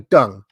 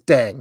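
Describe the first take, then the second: First: The vowel sounds like 'uh' in 'dung'. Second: The vowel sounds like 'eh' in 'bed'. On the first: The speaker calls it wrong. "It doesn't say dung" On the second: The speaker calls it right. "D E N G says Deng"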